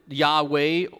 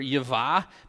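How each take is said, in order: First: The middle consonant is a W sound. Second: The middle consonant is a V sound. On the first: The speaker calls it wrong. "the Vav was a V sound rather than a W" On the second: The speaker calls it right. "I prefer Yavah, because I think that the Vav was a V sound"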